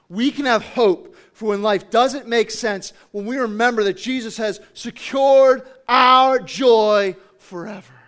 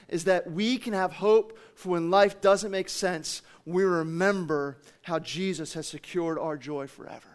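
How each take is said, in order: First: Loud, emphatic build to a drawn-out finish; booming sermon proclamation; impassioned preaching. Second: Said in the usual way. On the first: Real, not acted. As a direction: drive each phrase home, louder and slower at the end. Same takeaway repeated with force.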